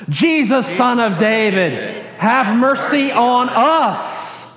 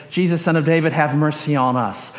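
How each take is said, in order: First: Slow, higher-pitched communal plea; group crying out. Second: Said in the usual way. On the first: Shown as a demonstration. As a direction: cry out together, stretching every phrase. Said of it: "a group thing". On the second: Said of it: "and say".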